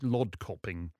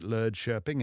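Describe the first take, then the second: First: The name is said with plain English-like vowels. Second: The name is said with rounded Swedish-like vowels. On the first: The speaker calls it wrong. "It looks like Lodkoping if you see it in print" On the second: The speaker calls it right. "but I think we pronounce it Lödköping"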